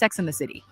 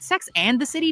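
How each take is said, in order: First: The word 'and' is slurred and reduced. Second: The word 'and' is pronounced fully and clearly.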